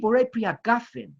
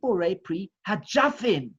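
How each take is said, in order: First: The last word has a hard g sound. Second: The last word has a j sound. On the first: This is the familiar pronunciation. "that so many of us are used to" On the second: This is the Yemenite pronunciation. "which is indeed the correct way"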